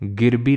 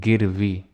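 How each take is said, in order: First: The second consonant is a 'b' sound. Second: The second consonant is a 'v' sound. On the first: The speaker calls it wrong. "गिरबी नहीं" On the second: The speaker calls it right.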